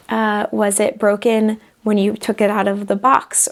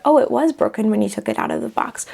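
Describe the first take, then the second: First: Was it broken when you took it out of the box asked with a rising end; a curious rising question on box; asking question. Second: Oh, it was broken when you took it out of the box said as a statement; stated back. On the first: Calm shopkeeper asking the customer a question, rising end. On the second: Calm shopkeeper confirming the customer's answer, statement. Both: Retold or imitated. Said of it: "somewhere in the middle might be something like".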